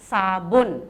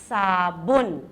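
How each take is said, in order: The two takes are said the same way.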